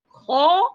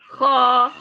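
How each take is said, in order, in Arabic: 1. يُنطق صوت الخاء بتفخيم طبيعي ومعتدل. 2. يُنطق صوت الخاء بتفخيم متكلَّف ومبالغ فيه. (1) "التفخيم فطري، مثل ما تنادي على ولد اسمه خالد" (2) "ولا بنقول له خا خا"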